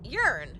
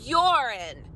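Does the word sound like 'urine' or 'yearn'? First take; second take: yearn; urine. First: The word sounds like 'yearn'. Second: The word sounds like 'urine'. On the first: The speaker calls it wrong. "it's not yearn" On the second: The speaker calls it right. "It's urine"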